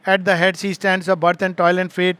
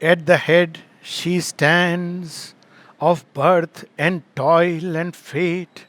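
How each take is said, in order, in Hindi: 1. यह बिना किसी स्पष्ट लय के सीधे-सादे ढंग से पढ़ी जाती है। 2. यह मज़बूत और एक समान लय के साथ पढ़ी जाती है। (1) "केवल नॉर्मल पढ़ोगे" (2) "रिद्म में पढ़ेंगे"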